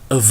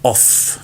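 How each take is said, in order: First: The word ends with a v sound. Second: The word ends with an f sound. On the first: The speaker calls it right. "but v" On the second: The speaker calls it wrong. "do not pronounce this off, not with f"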